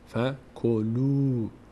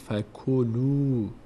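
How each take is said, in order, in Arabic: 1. الحركة الأخيرة ممدودة وطويلة. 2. الحركة الأخيرة ممدودة وطويلة.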